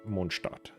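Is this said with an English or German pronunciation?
German. It is pronounced with German sounds.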